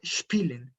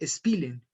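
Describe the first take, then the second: First: Spielen with sh before the p; sh sound. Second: Spielen with a plain Spanish s; wrong s sound. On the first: Teacher gives learners the correct spielen. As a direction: start spielen with a clear sh. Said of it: "Yo no dije spielen". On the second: Teacher shows the mistake with spielen. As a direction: say spielen with a sharp s. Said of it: "dije spielen". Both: Shown as a demonstration.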